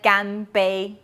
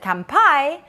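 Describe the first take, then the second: First: It begins with a g sound. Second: It begins with a k sound. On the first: This is how it is read in Taiwan or China. "in Taiwan or China, you should pronounce it ganbei" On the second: This is how it is read in Japan. "if you see it in Japan, you should pronounce it kanpai"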